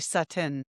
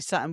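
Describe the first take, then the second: First: The middle T sound is clearly pronounced. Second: The middle T sound is dropped. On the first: "We don't say Sutton" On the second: "we do not pronounce our T. Like when we say Sutton, we say Sutton"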